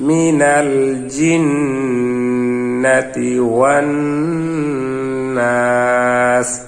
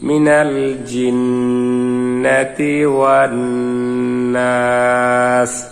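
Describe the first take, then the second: The two takes are said the same way.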